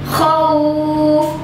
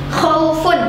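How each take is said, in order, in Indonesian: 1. Bunyi vokal yang lunak itu dibaca panjang. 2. Bunyi vokal yang lunak itu dibaca pendek. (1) "kemudian waw-nya dipanjangin lunaknya" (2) "dia dibaca lunak, lembut, tapi nggak panjang karena dia bukan mat"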